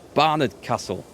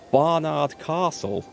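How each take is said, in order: First: Castle is said with a Northern English accent. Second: Castle is said with a Southern English accent. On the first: The speaker calls it right. "no, it's Barnard Castle" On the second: The speaker calls it wrong. "all the flipping news reports were called Barnard Castle"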